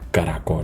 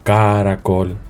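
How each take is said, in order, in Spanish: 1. El acento cae en la última sílaba. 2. El acento cae antes de la última sílaba. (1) "Nosotros decimos caracol" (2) "Nosotros no decimos caracol"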